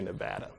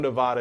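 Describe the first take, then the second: First: It is pronounced the way local residents say it. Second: It is pronounced as in the original language. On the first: "people who live in Nevada say Nevada" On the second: "how you pronounce it in the language"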